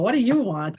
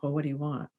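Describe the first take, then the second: First: It sounds sharp and irritated. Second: It sounds resigned and defeated.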